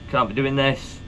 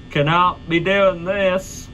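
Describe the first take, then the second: First: Said in the usual way. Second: "Cannot be doing this" slow, every word stressed; slow emphatic cannot. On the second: Shown as a demonstration.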